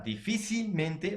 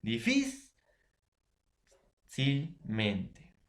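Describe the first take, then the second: First: Said in the usual way. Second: "Difícilmente" very slow, long pause after di-FÍ; syllable-by-syllable. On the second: Shown as a demonstration. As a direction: break "Difícilmente" into widely spaced syllables, stressing FÍ. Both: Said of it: "la palabra difícilmente va a llevar tilde".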